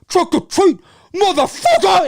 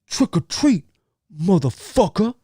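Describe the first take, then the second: First: It is said in an extreme, over-the-top way. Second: It is said in a calmer, plainer way.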